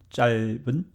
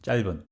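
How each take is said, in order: First: The word is said at medium speed. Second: The word is said quickly. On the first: "middle speed" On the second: "to the fast speed"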